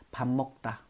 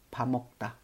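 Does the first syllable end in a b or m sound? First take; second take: m; m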